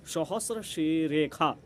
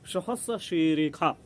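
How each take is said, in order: First: The consonant in the second word sounds like kh. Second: The same.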